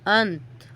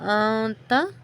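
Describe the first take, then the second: First: The word ends on a bare consonant. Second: The word ends with a final vowel.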